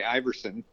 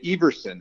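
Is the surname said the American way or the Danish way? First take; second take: American; Danish. First: The surname is said the American way. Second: The surname is said the Danish way. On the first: "In America, we say Iverson" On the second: "In Denmark, they say Everson, and that's the correct pronunciation"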